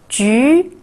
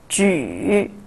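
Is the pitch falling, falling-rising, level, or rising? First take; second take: rising; falling-rising. First: The pitch rises from mid to high. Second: The pitch dips low, then rises.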